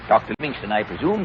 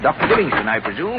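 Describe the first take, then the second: First: Softer trial run of the line; rehearsing a line. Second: Fuller second take of the line; rehearsing a line. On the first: Explorer practising his greeting, low and soft. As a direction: mutter it through once to practise. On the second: Explorer practising his greeting at full voice. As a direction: try it properly this time. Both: Shown as a demonstration. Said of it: "I'll rehearse my speech".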